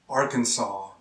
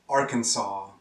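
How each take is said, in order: Both takes have the same delivery.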